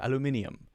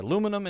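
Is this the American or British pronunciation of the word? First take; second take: British; American. First: It has five syllables, ending in -nium. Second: It has four syllables, ending in -num. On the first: This is how British people say it. "they say aluminium" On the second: This is how Americans say it. "We say aluminum in America"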